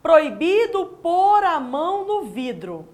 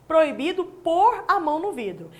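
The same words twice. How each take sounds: First: Slow, careful reading with weight on pôr; a teacher reading the test sentence slowly, landing on pôr. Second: Said in the usual way. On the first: Shown as a demonstration. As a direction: read it out slowly, leaning on pôr. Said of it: "Olha comigo". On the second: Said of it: "Provavelmente já tenha até escrito essa frase".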